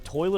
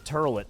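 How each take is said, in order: First: The first vowel is an oy sound. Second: The first vowel is an er sound.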